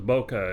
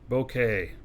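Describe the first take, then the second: First: The name ends with an 'ah' sound. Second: The name ends with an 'ay' sound. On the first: The speaker calls it wrong. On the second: The speaker calls it right.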